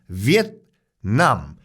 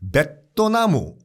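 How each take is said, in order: First: The final consonant is kept, with no added vowel. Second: Vowels are added after the consonants, Japanese-style. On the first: "받침을 안 하시니까" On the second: "베토나무 이렇게 발음을 해요. 일본식으로는요"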